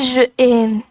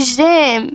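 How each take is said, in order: First: The vowel of je is pronounced separately. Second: The vowel of je is dropped and joined. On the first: The speaker calls it wrong. "non pas je aime" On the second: The speaker calls it right. "C'est j'aime"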